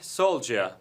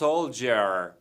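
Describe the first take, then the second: First: It is said in a British accent. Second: It is said in a non-British, likely American accent.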